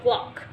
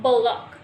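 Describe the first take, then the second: First: Said in the usual way. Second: Block with an extra vowel, buh-lock; added sound. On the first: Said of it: "instead of block". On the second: Shown as a demonstration. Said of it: "extra sounds has been added".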